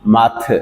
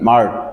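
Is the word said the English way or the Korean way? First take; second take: Korean; English. First: It is said with Korean pronunciation. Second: It is said with English pronunciation. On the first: "Korean ভাষায় এটাকে উচ্চারণ করবে মাথ" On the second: "ইংলিশে মার্ট"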